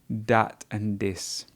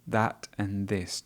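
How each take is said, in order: First: The first word starts with a hard d sound. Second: The first word starts with a soft th sound. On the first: The speaker calls it wrong. "he says words like dat" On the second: The speaker calls it right. "the correct pronunciation would be that and this"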